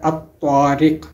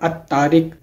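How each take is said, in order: First: The t sound is heavy and emphatic. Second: The t sound is plain and light. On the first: The speaker calls it right. "जबकि इसका असल है" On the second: The speaker calls it wrong. "आम तरीके से पढ़ लेते हैं"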